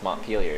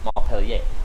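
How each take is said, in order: First: It is pronounced with an English sound. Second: It is pronounced with a French sound. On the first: The locals say it this way. "they're like, no, it's Montpelier" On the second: This follows the original spelling. "It should be Montpellier"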